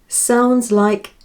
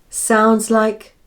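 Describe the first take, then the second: No difference in how they are said.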